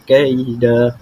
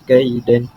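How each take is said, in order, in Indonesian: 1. Kata "kaida" berakhir dengan vokal biasa, tanpa n. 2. Kata "kaida" berakhir dengan bunyi n yang ditambahkan. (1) "yakni kaida" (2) "bukan dibaca kaidan"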